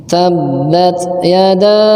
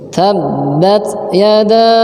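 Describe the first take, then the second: No difference in how they are said.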